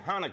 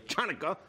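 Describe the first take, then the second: First: The word begins with an 'h' sound. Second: The word begins with a 'ch' sound. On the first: The speaker calls it right. "say Hanukkah" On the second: The speaker calls it wrong. "not say Chanukah"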